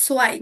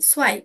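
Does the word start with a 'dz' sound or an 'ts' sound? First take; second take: ts sound; ts sound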